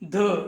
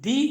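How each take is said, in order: First: The word ends in a short 'uh' vowel. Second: The word ends in an 'ee' vowel. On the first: It comes before a word starting with a consonant sound. "ഈ വാക്കിൻ്റെ പൊതുവായ ഉച്ചാരണം the എന്നതിന് അടുത്താണ്" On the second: It comes before a word starting with a vowel sound. "ഉച്ചാരണം ദി എന്നതിന് അടുത്തായി മാറും"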